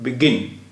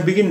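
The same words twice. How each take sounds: First: begin with the second syllable गिन leaned on; stress on second syllable. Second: Said in the usual way. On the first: Shown as a demonstration. Teacher showing students how begin is said, second syllable stressed. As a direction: say begin, landing firmly on गिन. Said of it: "दूसरे syllable पर stress". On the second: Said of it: "इसे हम begin नहीं कहेंगे".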